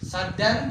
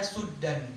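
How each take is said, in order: First: The first vowel is an open 'a' sound. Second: The first vowel is a rounded 'u' sound. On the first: This is the reading the speaker's audience normally uses. "Saddan yaitu qiraah Hafs yang kita baca" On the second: This is the reading used in another tradition and place. "Suddan itu adalah qiraah Abi Amr"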